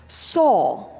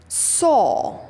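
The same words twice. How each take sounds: The two takes are said the same way.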